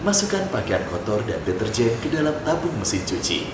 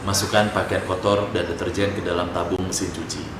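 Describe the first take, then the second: First: A low voice that sounds smiling and warm. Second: A low voice with flat, unchanging intonation. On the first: The speaker calls it right. "saya pakai tone yang bawah, tapi pakai smiley voice" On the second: The speaker calls it wrong. "tone deep, tone bawah, tapi intonasinya tuh nggak berubah-berubah"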